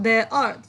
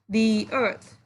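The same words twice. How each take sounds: First: The word 'the' is said with a short 'thuh' vowel. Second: The word 'the' is said with a long 'thee' vowel. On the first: The speaker calls it wrong. "not the earth. You cannot pronounce the earth" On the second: The speaker calls it right. "You have to pronounce the earth"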